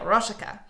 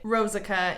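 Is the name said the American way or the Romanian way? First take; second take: Romanian; American. First: The name is said the Romanian way. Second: The name is said the Americanized way.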